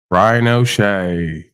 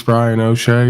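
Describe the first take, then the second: First: Slow, stretched announcer call of the name "Brian O'Shea"; drawn-out name. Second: Said in the usual way. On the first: Acted. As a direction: drag out "Brian O'Shea" like introducing a guest. Host announces a guest.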